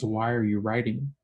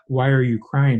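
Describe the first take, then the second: First: Said in the usual way. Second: Loud crying question. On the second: Shown as a demonstration.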